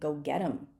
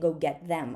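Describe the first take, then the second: First: The word them is reduced to a short 'em. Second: The word them is said in its full form. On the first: The speaker calls it right. "I'm saying go get 'em" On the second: The speaker calls it wrong. "I'm not saying go get them"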